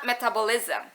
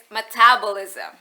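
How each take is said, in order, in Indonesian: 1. Tekanannya bukan di suku kata 'tab'. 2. Tekanannya di suku kata 'tab'. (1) "it's not metabolism" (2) "it's metabolism ... penekanan pada suku kata tap"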